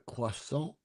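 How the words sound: The word is said with French pronunciation. "they don't say, like, do you want a croissant? Because they're like, we're not French"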